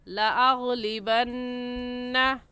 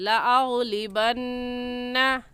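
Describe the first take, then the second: No difference in how they are said.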